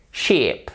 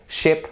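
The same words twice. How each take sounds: First: "sheep" with a long, falling ee; long vowel. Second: "sheep" said short and lax, as ship; short vowel. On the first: Teacher sums up for learners, "sheep" with a long ee. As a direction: draw out the ee in "sheep". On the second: Teacher sums up for learners, short lax i in "sheep". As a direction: keep the vowel brief, turning "sheep" into ship. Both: Shown as a demonstration. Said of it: "pour prononcer les voyelles".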